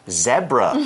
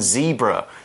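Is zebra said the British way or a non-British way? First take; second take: British; non-British. First: It is said with the British pronunciation. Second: It is said with a non-British pronunciation. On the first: "in the UK, people say zebra" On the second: "rather than zebra"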